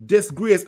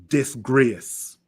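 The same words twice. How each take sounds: First: Higher, louder outraged "Disgrace." with a rising end; angry repeat. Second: Said in the usual way. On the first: Real, not acted. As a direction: fire the word back, louder and higher. Repeats verdict twice, second louder.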